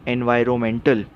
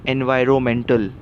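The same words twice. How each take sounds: The two takes are said the same way.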